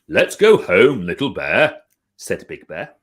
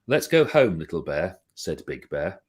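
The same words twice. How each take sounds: First: It is read lively, with character voices. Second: It is read in a flat monotone.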